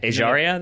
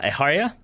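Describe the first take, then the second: First: The name is pronounced the English way. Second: The name is pronounced the Spanish way. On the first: The speaker calls it right. "Ejaria, then, is what I'm going to say" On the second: The speaker calls it wrong. "I'm going to say it, that's how you pronounce it?"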